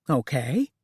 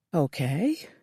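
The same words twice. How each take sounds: First: Said in the usual way. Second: Breathed. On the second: A narrator's reading. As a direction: breathe the word out. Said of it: "Lola breathed".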